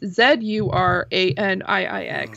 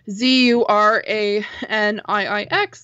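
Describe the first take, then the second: First: It is spelled the Canadian way, saying zed. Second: It is spelled the American way, saying zee.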